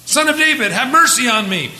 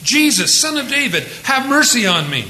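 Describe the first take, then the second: First: High, loud desperate plea; crying out louder. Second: Crying out. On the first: Blind beggar cries out to Jesus, loud and high. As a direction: beg at the top of your voice. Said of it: "he cried out all the more". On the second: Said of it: "he began to cry out". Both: Retold or imitated.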